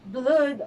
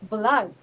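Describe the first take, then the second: First: The vowel is a long oo, as in moon. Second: The vowel is a short uh sound. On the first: The speaker calls it wrong. "it is not pronounced as blood" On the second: The speaker calls it right. "but blood"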